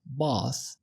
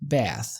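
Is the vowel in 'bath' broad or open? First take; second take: broad; open. First: The vowel is a broad, heavy 'ah' sound. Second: The vowel is an open, flat 'a' sound. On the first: "فخمت حرف ال A في bath وقالت bath" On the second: "الأمريكي بيفتح ال A"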